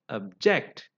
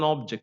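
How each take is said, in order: First: The stress is on the second syllable. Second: The stress is on the first syllable. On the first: It is a verb meaning to protest. "as a verb, ... stress is on the second syllable" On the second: It is a noun meaning a thing. "The stress is on the first syllable"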